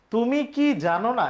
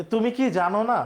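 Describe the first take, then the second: First: Slow, with কি stressed in "তুমি কি জানো না?"; teacher posing a yes-no question to the class; question read out. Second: কি stressed with a rising end in "তুমি কি জানো না?"; teacher asking the class directly; asking a student. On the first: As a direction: ask it slowly, leaning on কি. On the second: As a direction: put it to a student as a real question. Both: Shown as a demonstration. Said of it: "এই অংশটা আমি যদি কাউকে জিজ্ঞেস করি".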